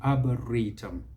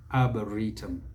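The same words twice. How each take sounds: The two takes are said the same way.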